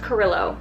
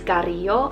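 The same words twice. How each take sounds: First: The name is pronounced with English sounds. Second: The name is pronounced with Spanish sounds. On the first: "in English. That's how you pronounce it" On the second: "in Spanish"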